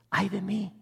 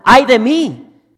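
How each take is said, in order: First: It is said quietly, without shouting. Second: It is shouted loudly.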